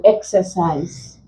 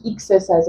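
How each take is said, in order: First: Said in the usual way. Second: Exercise begun with a short "ee" sound, "ik-ser-size"; wrong first vowel. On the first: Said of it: "because the stress is here". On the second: Shown as a demonstration. Teacher showing what not to say, exercise begun with "ik". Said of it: "we don't pronounce it as".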